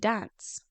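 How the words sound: It is said in a northern English accent.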